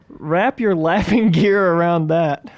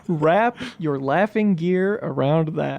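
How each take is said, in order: First: Slow, drawn-out Aussie read; hammy Australian accent. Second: Said in the usual way. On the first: Shown as a demonstration. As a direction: ham up the Aussie slang.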